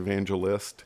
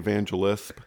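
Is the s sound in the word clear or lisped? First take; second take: clear; lisped. First: The s sound is a clear s. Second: The s sound is lisped like th. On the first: This is the standard way to say it. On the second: This is how the speaker naturally says it.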